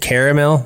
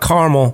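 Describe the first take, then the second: First: The word is said with three syllables. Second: The word is said with two syllables. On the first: The speaker calls it right. "It is caramel" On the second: The speaker calls it wrong. "not caramel, by the way. Carmel's a city"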